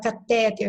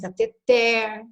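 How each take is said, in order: First: The stress falls on the second-to-last syllable. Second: The stress falls on the last syllable. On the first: The speaker calls it wrong. "O pessoal fala catéter, está errado" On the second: The speaker calls it right. "é cateter ... são as oxítonas"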